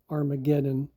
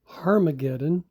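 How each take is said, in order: First: The word begins with a vowel sound. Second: The word begins with an H sound. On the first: This is how English speakers say it. "we would say Armageddon in English" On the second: This is how Greek speakers say it. "The Greeks pronounce it with an H"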